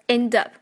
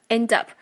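The two takes are said the same way.

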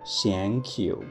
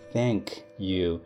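First: 'Thank' starts with a sound other than th. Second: 'Thank' starts with a th sound. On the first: The speaker calls it wrong. "每次当Bruce 想说谢谢的时候，他都说的是Thank you" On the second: The speaker calls it right. "我们都知道应该是Thank you，T-H-A-N-K"

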